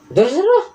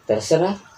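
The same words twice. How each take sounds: First: It sounds sharp and angry. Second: It sounds hesitant and resigned. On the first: The speaker is annoyed and resentful. "mengandung konotasi marah di dalamnya" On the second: The speaker doesn't mind and leaves the choice to others. "dia terlihat pasrah gitu"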